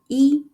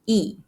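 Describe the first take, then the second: First: It is said in the high level first tone. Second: It is said in the falling fourth tone. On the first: The word is used by itself. "As the first tone" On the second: The next word has a first, second or third tone. "一 is reading the fourth tone"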